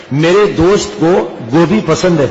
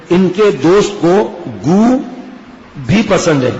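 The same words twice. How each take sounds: First: Said in the usual way. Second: گوبھی split in two, long گو, pause, then بھی; wrong word break. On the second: Shown as a demonstration. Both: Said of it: "کہاں آپ نے پکانے کا بول دیا".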